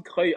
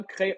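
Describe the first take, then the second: First: "Creil" said with a rounded "eu" and a final y sound, "Creuil"; "Creil" pronounced "Creuil", firmly; right pronunciation. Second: "Creil" said as "Crè", ending cut off; "Creil" flattened to "Crè"; wrong pronunciation. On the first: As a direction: give "Creil" its full "euil" ending. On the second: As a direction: clip "Creil" short, no final sound, like "Crè". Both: Shown as a demonstration. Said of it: "on dit pas Creil, on dit Creil".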